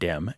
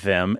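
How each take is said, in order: First: The word begins with a d sound. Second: The word begins with a th sound. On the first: "as these and that and dem and those" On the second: "pronounce words like these and that and them and those"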